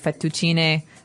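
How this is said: It is said with an Italian accent. "in Italian it'd be fettuccine"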